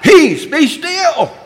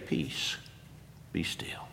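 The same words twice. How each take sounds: First: It is cried out loudly. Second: It is said calmly and quietly.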